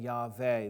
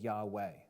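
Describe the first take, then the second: First: The middle consonant is a V sound. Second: The middle consonant is a W sound. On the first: "instead of saying" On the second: "is pronounced like a W sound"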